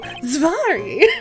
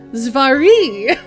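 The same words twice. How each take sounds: First: The last syllable has less emphasis. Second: The last syllable is strongly emphasized.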